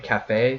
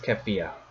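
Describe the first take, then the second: First: The name sounds like 'cafe', two syllables. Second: The name sounds like 'kefia', three syllables. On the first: The speaker calls it right. "it's supposed to be Cafe" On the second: The speaker calls it wrong. "I pronounce it as Kefia"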